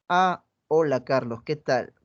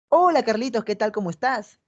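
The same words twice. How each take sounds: First: Greets him while looking at her phone; bored greeting. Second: A bright, eager hello to someone she likes; lively, inviting tone; interested greeting. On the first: (saludo aburrido y desganado, más bajo) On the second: (saludo animado e interesado) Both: Shown as a demonstration. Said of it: "Un mismo mensaje dicho de diferente manera".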